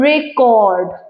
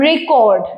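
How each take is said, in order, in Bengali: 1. দ্বিতীয় সিলেবলে জোর। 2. প্রথম সিলেবলে জোর। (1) "when it is used as a verb the stress shift to the second syllable" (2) "has stress on the first syllable when it is a noun"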